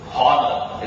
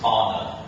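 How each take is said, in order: First: The h sound is clearly pronounced. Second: The h sound is left silent. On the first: The speaker calls it wrong. "It's not um, uh, honor" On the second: The speaker calls it right. "it's honor"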